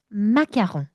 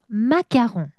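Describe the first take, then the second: Both takes have the same delivery.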